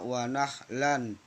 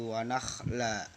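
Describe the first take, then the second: First: The last word ends with an n sound. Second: The last word ends with a long vowel. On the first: This is the full form without stopping. "aslinya wa nakhlan" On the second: The reciter stops on this word. "karena diwakafkan maka berubah menjadi wa nakhla"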